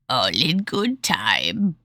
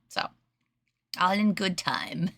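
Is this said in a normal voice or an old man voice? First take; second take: old man; normal. First: It is said in a put-on old man's voice. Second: It is said in the speaker's ordinary voice. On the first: The speaker calls it right. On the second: The speaker calls it wrong.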